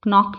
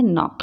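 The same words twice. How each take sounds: First: नॉक with the silent k wrongly sounded, "k-nock"; voiced k at the start of नॉक; wrong pronunciation. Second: Said in the usual way. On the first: Shown as a demonstration. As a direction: say नॉक as "k-nock", hard k before the n. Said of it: "नॉक नहीं पढ़ेंगे". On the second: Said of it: "क्या पढ़ेंगे?".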